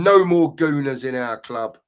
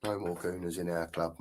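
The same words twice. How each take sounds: First: Reading out loud. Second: Low, soft muttered agreement; quiet echo. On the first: Retold or imitated. Reading a fan's chat message to viewers, slow and firm. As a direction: read the comment out slowly and firmly. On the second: Real, not acted. Echoing a viewer's comment back to himself, softly and low. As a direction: agree under your breath.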